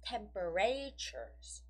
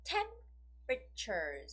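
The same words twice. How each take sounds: First: The stress is on a later syllable. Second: The stress is on the first syllable. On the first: The speaker calls it wrong. "It's not temperatures. It's wrong" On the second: The speaker calls it right. "So it goes on the first syllable, right? So temperatures is the right way of saying it"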